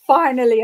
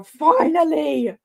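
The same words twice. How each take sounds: First: Said in the usual way. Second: Slow, stretched Finally, sung out higher; drawn-out relief. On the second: Real, not acted. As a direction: draw out Finally with triumph.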